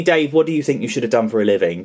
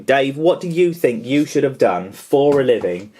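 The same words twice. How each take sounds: First: Said in the usual way. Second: Deliberate word-by-word question, "you" picked out; emphatic repeat. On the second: Retold or imitated. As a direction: spell out the question, stressing "you".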